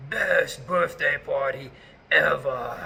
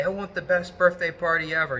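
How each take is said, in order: First: Slow, drawn-out dramatic ninja voice. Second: Ninja voice. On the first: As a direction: stretch each word like a mysterious ninja. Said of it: "like, ninja voice". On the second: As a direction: play it like a dramatic ninja host. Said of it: "I would say it in this, like, ninja voice". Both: Retold or imitated.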